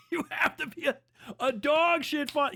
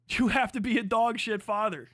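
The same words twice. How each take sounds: First: Higher, laughing through the words; laughing repeat. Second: Said in the usual way. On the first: Real, not acted. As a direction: say it again while cracking up.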